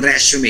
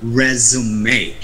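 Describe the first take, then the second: First: The s is sounded as a hissing s. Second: The s is sounded as a buzzing z. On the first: The speaker calls it wrong. "Walang resume" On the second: The speaker calls it right. "S should be pronounced uh, like a Z, as, as in zebra"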